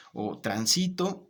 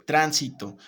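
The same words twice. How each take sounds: First: Transito said slowly with SI stressed; slow transito stressed on the middle. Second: Tránsito with the first syllable punched loud; tránsito stressed on the first syllable; stress on TRÁN. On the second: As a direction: say tránsito with TRÁN hit hard. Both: Shown as a demonstration. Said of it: "según la carga tónica".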